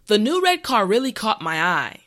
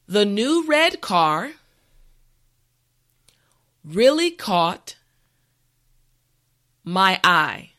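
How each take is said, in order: First: The sentence is said at a normal, quicker pace. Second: The sentence is said slowly and carefully. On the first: "the last time at a regular pace" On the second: "this time repeat after me"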